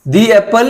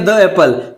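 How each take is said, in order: First: 'The' is said with a long 'ee' vowel. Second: 'The' is said with a short 'uh' vowel. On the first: The speaker calls it right. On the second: The speaker calls it wrong.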